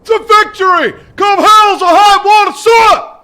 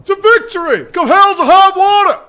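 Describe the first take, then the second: First: Bellowed battle cry, louder still; all-out shout ending on sir; full shout. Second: Shouted battle cry; a first shout that holds back a little; loud call. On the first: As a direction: roar it back at the drill sergeant. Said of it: "Sound off like you got a pass". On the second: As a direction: sound off to the drill sergeant. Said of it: "whispering like that?". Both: Real, not acted.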